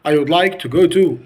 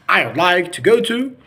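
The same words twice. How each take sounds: First: Said in the usual way. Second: "I'd" merged into one syllable; contracted American pronunciation. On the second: Shown as a demonstration. Teacher contrasting for students, contracted "I'd". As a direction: run "I'd like to go to" together. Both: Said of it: "distinguished the difference between".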